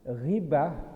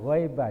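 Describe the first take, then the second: First: The first vowel is a plain 'i' sound. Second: The first vowel is an 'ai' sound. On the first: The speaker calls it right. "Ghibah bukan ghaibah ya" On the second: The speaker calls it wrong. "bukan ghaibah"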